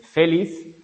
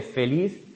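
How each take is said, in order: First: Feliz stressed on FE, as FÉ-liz; stress on first syllable. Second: Said in the usual way. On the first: Shown as a demonstration. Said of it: "en vez de feliz". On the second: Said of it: "La palabra feliz es aguda".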